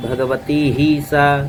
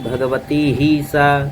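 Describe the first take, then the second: First: The vowel in 'hi' is drawn out long. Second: The vowel in 'hi' is drawn out long.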